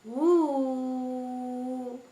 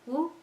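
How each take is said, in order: First: The vowel is held for three counts. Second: The vowel is held for one short count. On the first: "And then there is the third one. Ooh. Three"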